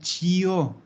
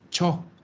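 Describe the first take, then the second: First: An 'ee' sound is heard before the 'o'. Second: No 'ee' sound is heard before the 'o'. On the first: The speaker calls it wrong. "yo no digo chio" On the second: The speaker calls it right. "digo cho"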